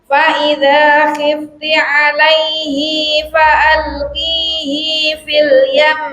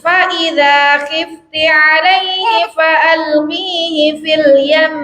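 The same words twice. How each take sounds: First: The vowel after the 'hi' sound is lengthened. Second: The vowel after the 'hi' sound is short. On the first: It follows another reading tradition. "Imam Ibnu Katsir membacanya dengan panjang" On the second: It follows one reading tradition.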